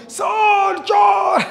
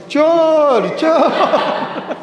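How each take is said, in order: First: Very high, long shout; shouted alarm. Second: Shouting thief. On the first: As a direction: scream it out to sir like a thief is inside. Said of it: "तो तू जोर से चिल्लाना". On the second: Teacher shows student how to yell thief. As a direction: demo how to scream for help. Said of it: "कैसे चिल्लाएगी?". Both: Shown as a demonstration.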